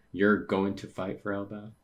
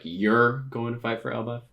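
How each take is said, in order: First: Said in the usual way. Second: "You're going to fight for Elbaf?" asked higher and louder, every word leaned on; emphasized question. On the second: Shown as a demonstration. Reader re-reads the line to show its emphasis, higher and louder. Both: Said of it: "like, emphasizing".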